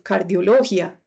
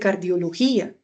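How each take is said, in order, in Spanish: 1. El acento recae en una sílaba distinta de 'gí'. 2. El acento recae en la sílaba 'gí'. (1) "Usted no dice" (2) "usted dice"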